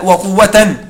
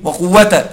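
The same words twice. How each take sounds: First: وقوة ending in "-tan"; with tanween. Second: وقوة ending in a plain "-ta"; without tanween. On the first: Teacher corrects the printed text for students, وقوة with tanween. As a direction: say وقوة as "wa-quwwatan", sounding the final n. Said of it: "لا، اجعلها بتنوين". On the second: Teacher shows students the printed mistake, وقوة without tanween. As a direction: say وقوة as "wa-quwwata", no final n. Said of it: "بدون تنوين يا إخواني". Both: Shown as a demonstration.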